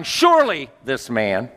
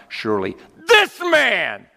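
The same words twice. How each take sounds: First: Surely leaned on, rising; stress on surely. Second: "this" punched high and loud, falling; stress on THIS. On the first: Preacher demonstrating a wrong emphasis on surely. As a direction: lean into "surely" with a lift. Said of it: "I don't think the emphasis was on". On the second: Preacher showing the right emphasis, hitting "this". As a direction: shout the word "this" in "surely this man". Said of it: "I think the emphasis is on". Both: Shown as a demonstration.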